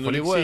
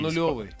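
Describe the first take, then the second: First: The middle vowel is sounded as e. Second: The middle vowel is sounded as yo. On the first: The speaker calls it wrong. "Не нулевой" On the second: The speaker calls it right. "а нулевый. Используйте букву Ё"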